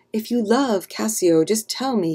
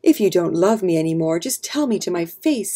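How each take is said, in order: First: Mildly insistent, a little higher at first; demanding. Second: Mild narrated shout. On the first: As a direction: press for an answer with restrained force. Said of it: "he demanded". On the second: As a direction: raise the voice a little, demanding an answer. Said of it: "he shouted". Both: A narrator's reading.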